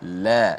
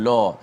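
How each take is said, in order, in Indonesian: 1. la dibaca ringan dan tipis. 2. la dibaca berat dan tebal.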